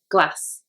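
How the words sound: It is said in a Northern English accent. "In the North, they would generally say it glass"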